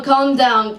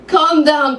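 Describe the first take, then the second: First: Put-on Hebrew accent. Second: Put-on soothing Hebrew-accented calm down. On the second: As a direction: settle her, Hebrew accent. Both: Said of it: "I've never done a Hebrew accent".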